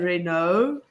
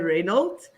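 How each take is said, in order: First: The name is said the English way, like Renault. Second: The name is said the Afrikaans way, like Reynolds. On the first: "English people say Renault" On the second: "Afrikaans people say Reynolds"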